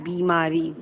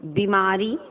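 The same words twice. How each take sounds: First: "बीमारी" as bee-maari; lengthened bee in "बीमारी"; long ī. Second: "बीमारी" as bi-maari, short first i; brief bi in "बीमारी"; wrong short vowel. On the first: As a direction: hold the first vowel in "बीमारी". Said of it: "शुद्ध क्या है?". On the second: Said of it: "बीमारी तो नहीं होगा". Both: Shown as a demonstration.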